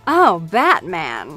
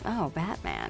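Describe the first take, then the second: First: It is said bigger, broader and campier. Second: It is said small, soft and intimate.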